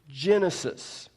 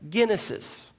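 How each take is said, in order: First: The word is pronounced the English way. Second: The word is pronounced the Greek way. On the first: "we pronounce it in English Genesis" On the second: "they pronounce the Greek word genesis as Genesis"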